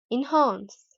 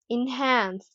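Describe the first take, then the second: First: "enhance" with a back "ah" vowel; British long A. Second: "enhance" with the front vowel of cat; American short A. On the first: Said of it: "in British English". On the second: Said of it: "British and the American accents". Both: Shown as a demonstration.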